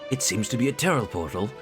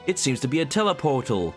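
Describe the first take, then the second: First: The R sounds are pronounced in his usual accent. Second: The R sounds are dropped from his usual accent.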